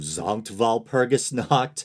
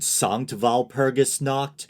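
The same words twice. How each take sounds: First: The first word begins with a Z sound. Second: The first word begins with an S sound. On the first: The speaker calls it right. "the S should be pronounced as a Z" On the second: The speaker calls it wrong. "but I said Sankt Walpurgis Nacht"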